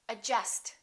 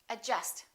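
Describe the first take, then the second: The two takes are said the same way.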